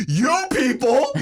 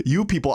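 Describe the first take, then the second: First: "You people?" thrown back high, slow, rising on "people", laughing; mock-indignant, rising "You people?"; questioning echo. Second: Said in the usual way. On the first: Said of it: "With a question mark". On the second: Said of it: "And she goes".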